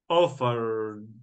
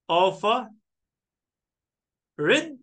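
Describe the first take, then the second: First: The ending is a plain 'd' sound. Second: The ending is an extra 'id' syllable. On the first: The speaker calls it right. "So I added what? D" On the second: The speaker calls it wrong.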